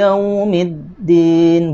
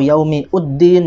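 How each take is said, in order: First: No extra vowel is heard before din. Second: An extra u vowel is heard before din. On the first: The speaker calls it right. "hamzah wasolnya diabaikan" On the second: The speaker calls it wrong. "atau yaumi uddin ya, tidak"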